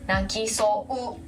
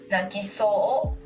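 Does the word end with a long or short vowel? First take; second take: long; short. First: The word ends in a long ou sound. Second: The word ends in a short o, no u. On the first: The speaker calls it wrong. "instead of 泣きそう" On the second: The speaker calls it right. "you need to pronounce this lyrics like 泣きそう"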